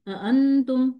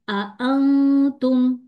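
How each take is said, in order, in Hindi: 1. पहला हमज़ा गिराया गया है और सहजता से मिला दिया गया है। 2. दोनों शुरुआती हमज़ा साफ़ तौर पर बोले गए हैं। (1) "गलत कैसे पढ़ूंगी?" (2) "मुझे यहाँ दोनों हमजा को पढ़ना है"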